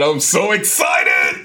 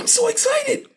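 First: The phrase is yelled loudly. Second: The phrase is said at a calmer volume. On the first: The speaker calls it wrong. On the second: The speaker calls it right.

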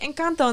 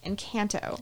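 First: It is said with a Spanish pronunciation. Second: It is said with an American English pronunciation. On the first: The speaker has a Mexican background. "I can say Encanto" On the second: This is how a non-Spanish speaker would say it. "instead of Encanto"

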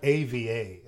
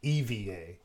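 First: The name begins with an 'ay' sound. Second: The name begins with an 'ee' sound. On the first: The speaker calls it wrong. "It's not AVA" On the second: The speaker calls it right. "It's EVA"

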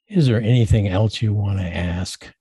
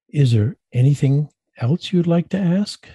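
First: The tone is cold and discouraging. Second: The tone is warm and inviting.

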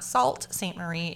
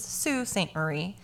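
First: The first word sounds like 'salt'. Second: The first word does not sound like 'salt'. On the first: The speaker calls it wrong. "It is not Sault Ste. Marie. ... S-A-U-L-T looked like salt" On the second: The speaker calls it right. "It is Sault Ste. Marie"

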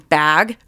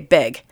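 First: The vowel is the open 'a' of bag. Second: The vowel is close, like the 'i' of big. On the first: "instead of saying bag" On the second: "she'd say big"

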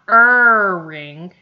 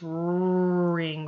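First: The r sound carries an added vowel. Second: The r sound is pure, with no vowel. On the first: The speaker calls it wrong. "it's not ring" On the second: The speaker calls it right. "It's ring robot"

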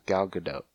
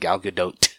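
First: The final T is soft, not crisply released. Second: The final T is a hard, crisply released T. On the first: The speaker calls it right. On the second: The speaker calls it wrong. "So it's not"

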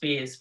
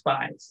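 First: The vowel sounds like the 'ee' in 'see'. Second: The vowel sounds like the word 'eye'. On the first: This is the name's real pronunciation. The speaker calls it right. "my name is pronounced Spees" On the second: This is an easier version used on the phone. The speaker calls it wrong. "it's the plural of Bond"

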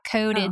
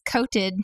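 First: The middle consonant sounds like a D. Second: The middle consonant sounds like a T. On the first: The speaker calls it wrong. "not coated" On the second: The speaker calls it right. "With a T"

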